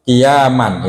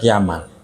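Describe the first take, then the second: First: The middle vowel is held long. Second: The middle vowel is kept short. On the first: This is the first reading given earlier. "Kalau tadi kan" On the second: This is another recorded reading of the word. "dibaca pendek"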